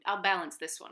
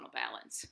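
First: Said in the usual way. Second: Soft whispered to herself; whispered aside. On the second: Shown as a demonstration. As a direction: whisper it under your breath.

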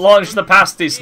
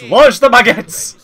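First: Hammed-up rallying shout, a bit louder; mock battle cry. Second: Slow, higher and louder battle shout; rally the troops over the bakery; mock war cry. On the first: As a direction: bellow it like a general sending troops. Joining mock war cry.

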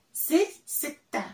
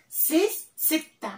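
Both takes have the same delivery.

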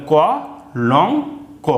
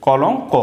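First: ক then লং then ক, each said apart with pauses; syllable by syllable. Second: কলং ক run together as one word; blended word. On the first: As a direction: split কলংক into ক, লং, ক, separate beats. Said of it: "আলাদা করব উচ্চারণ". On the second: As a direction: join the syllables into কলং ক. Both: Shown as a demonstration.

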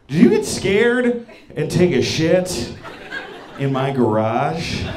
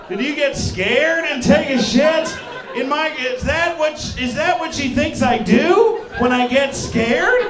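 First: Slow, halting question; awkward careful question. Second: High-pitched, incredulous shouting; indignant disbelief. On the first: Retold or imitated. Girl on the phone asks her date about the garage, slowly. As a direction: ask it gingerly, drawing the words out. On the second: Acted. Man rants about what she thinks he does, high and indignant. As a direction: throw the question back, outraged. Indignantly repeats her question back.

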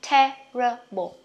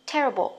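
First: Terrible drawn out slowly, syllable by syllable; slow teaching take of Terrible; slow model. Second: Terrible clipped quickly, schwa swallowed; quick natural take of terrible; said fast. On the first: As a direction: stretch Terrible out before the quick take. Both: Shown as a demonstration. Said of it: "Đọc nhanh nè".

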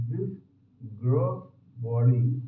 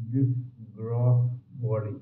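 No difference in how they are said.

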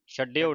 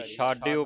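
First: ਛੱਡਿਓ with a short a and doubled d, the error; wrong short form. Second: ਛਾਡਿਓ with a long kanna a, chhaa-dio; correct long a. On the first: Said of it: "ਛੱਡਿਓ ਨਹੀਂ ਪੜ੍ਹਨਾ". (ਗਲਤ ਉਚਾਰਨ ਛੱਡਿਓ) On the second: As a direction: say ਛਾਡਿਓ, not short. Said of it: "ਛਾਡਿਓ ਪੜ੍ਹਨਾ ਇਸ ਨੂੰ". (ਛਾਡਿਓ ਕੰਨੇ ਨਾਲ) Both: Shown as a demonstration.

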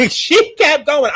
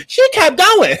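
First: She kept going, slow through a laugh; laughing repeat. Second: High exasperated. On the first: Reviewer laughing at the singing scene, slow. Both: Real, not acted.

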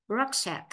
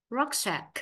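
The two takes are said the same way.

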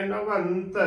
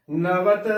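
First: ਨਵੰਤ with the n held before t; ਨਵੰਤ as "na-vann-t"; full nasal. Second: ਨਵਤ as "na-vat"; ਨਵਤ with a bare short a; no nasal. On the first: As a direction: fill out the tippi of ਨਵੰਤ. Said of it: "ਵਾਵੇ ਨੂੰ ਟਿੱਪੀ ਭਰ ਕੇ ਬੋਲਣੀ ਹੈ". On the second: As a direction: drop the n before t in ਨਵਤ. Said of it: "ਨਹੀਂ ਉਚਾਰਨ ਕਰਨਾ". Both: Shown as a demonstration.

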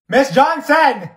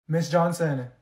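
First: Loud, drawn-out call of "Miss Johnson!"; calling out loudly. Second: Said in the usual way. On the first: Acted. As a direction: shout her name so she finally hears. Calling teacher, unheard.

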